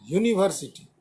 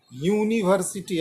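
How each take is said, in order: First: यूनिवर्सिटी begun with a clear "yu" sound; correct pronunciation. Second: यूनिवर्सिटी said the wrong way as a demo; teacher models the wrong यूनिवर्सिटी. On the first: Teacher to students, modelling the correct way. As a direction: model the right यूनिवर्सिटी, starting on "yu". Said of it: "इसका pronunciation करना है". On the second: Teacher to students, demonstrating the wrong way. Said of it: "ऐसा नहीं करना है". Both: Shown as a demonstration.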